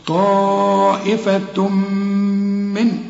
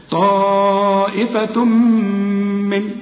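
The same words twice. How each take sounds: First: Slow طائفة من with the tanween merged into من; merged nun. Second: طائفة من with the lips closed on the merged م. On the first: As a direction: recite طائفة من with a nasal merge. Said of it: "هنا إدغام". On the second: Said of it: "اقفل لي هنا شفايفك". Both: Shown as a demonstration.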